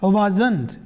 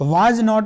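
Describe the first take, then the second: First: It is said as one short contracted word. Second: It is said as two separate full words.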